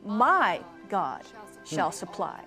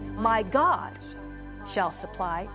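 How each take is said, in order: First: The stress is on the word my. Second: The stress is on the word God.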